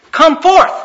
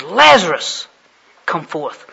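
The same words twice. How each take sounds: First: Loud, high preacher's command; commanding call. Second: Lazarus called out loudly, come forth dropping away; stress on Lazarus. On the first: Jesus calling to every tomb at once, commanding call. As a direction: boom it out to all the tombs. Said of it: "walked up to the tombs and said". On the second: Jesus calls only one man from the tombs, stress on Lazarus. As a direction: punch the name Lazarus, then ease off. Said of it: "he's the only one". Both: Retold or imitated.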